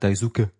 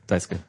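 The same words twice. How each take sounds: First: The name is said with a German-sounding pronunciation. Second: The name is said short, with a Japanese pronunciation. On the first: "wie man in Deutschland sagt" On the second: "Das wird immer sehr kurz ausgesprochen so"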